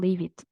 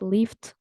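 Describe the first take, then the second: First: The ending is said as an extra syllable id. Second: The ending is said as a t sound. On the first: "or leave it" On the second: "not lift"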